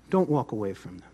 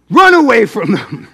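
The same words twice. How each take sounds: First: Low, soft, understated advice; hushed and low, holding back; quiet setup. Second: Sudden loud burst; loud, urgent exclamation; shouted punch line. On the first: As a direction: drop right down before the punch line. Soft setup before loud punch line. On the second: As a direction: belt it out as a comic warning. Loud punch line after quiet setup. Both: Shown as a demonstration.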